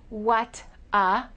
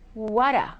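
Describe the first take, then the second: First: The T is a crisp, separate T sound. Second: The T is linked as a soft D sound. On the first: The speaker calls it wrong. "We don't say" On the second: The speaker calls it right. "we say"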